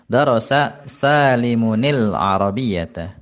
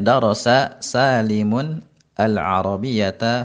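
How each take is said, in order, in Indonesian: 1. Salimun tersambung ke kata berikutnya dengan bunyi i. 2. Salimun dan al-Arabiyyata diucapkan sebagai kata terpisah.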